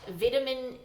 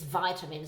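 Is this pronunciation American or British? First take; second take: British; American. First: The word uses the British pronunciation. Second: The word uses the American pronunciation. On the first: "That's the British pronunciation" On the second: "the American pronunciation is vitamin"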